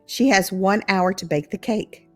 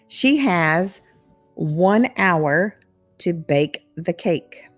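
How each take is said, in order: First: It is spoken at a natural, faster speed. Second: It is spoken slowly and carefully.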